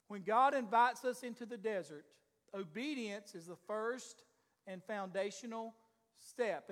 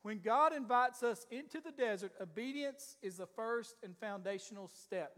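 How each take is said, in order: First: Slow, with pauses before "and foundational" and before "step."; slow and deliberate. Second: Said in the usual way. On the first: Shown as a demonstration. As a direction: let each part land: "obedience is the first", pause, "and foundational", pause, "step.". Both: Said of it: "let me share that with you again".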